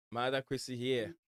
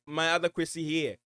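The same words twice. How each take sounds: First: Said in the usual way. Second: Called out higher and louder, eager; excited greeting. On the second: Real, not acted. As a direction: hail the viewer with a lift of excitement.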